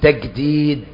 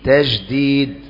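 First: The consonant is pronounced as a hard g. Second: The consonant is pronounced as a soft j. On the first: "بالمصري" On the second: "بالجيم"

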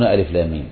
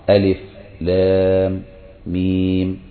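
First: The three letter names run together without pauses. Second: There is a stop after each letter name. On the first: This is how most reciters read it. "فإنهم يصلون ألف لام ميم" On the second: This is how a single reciter reads it. "يقف عند كل حرف"

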